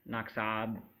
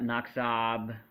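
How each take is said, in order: First: The final consonant sounds like a P. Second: The final consonant is a hard B sound. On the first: The speaker calls it right. "this becomes soft like a P" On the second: The speaker calls it wrong. "it's not naksab"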